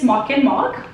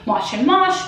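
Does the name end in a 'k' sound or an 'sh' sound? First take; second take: k; sh. First: The name ends with a 'k' sound. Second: The name ends with an 'sh' sound. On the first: The speaker believes this is correct. "I believe it's" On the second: Other people say it this way. "Some other people say"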